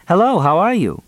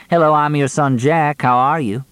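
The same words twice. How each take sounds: First: High, singsong sample greeting; mock polite greeting. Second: High-pitched mock cheery introduction; mocking greeting. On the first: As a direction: quote the greeting pointedly, pitched way up. Mock quote of a missing greeting. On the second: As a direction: throw the greeting back at him, voice lifted. Mock quote thrown back at him. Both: A narrator's reading.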